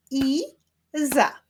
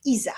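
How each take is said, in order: First: "I-za" in two higher, separated beats; syllable by syllable. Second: Said in the usual way. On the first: Shown as a demonstration. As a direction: stretch and split I-za, pause between. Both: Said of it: "Wyklaszczmy sylaby w imionach".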